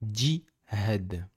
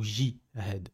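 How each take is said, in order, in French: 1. Le mot a des consonnes arabes. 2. Le mot a des consonnes à la française. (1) "Donc on dit jihad" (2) "On dit pas jihad ou jihad. On dit pas comme ça"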